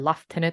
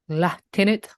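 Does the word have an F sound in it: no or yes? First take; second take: yes; no. First: It is said with an F sound. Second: It is said without an F sound.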